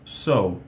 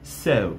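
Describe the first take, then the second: First: It is said with an American accent. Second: It is said with a British accent. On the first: "so no americano" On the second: "so no britânico"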